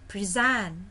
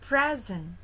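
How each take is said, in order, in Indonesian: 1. Tekanannya ada pada suku kata kedua. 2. Tekanannya ada pada suku kata pertama. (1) "tekanannya yang di kedua" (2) "jadi tekanannya di awal"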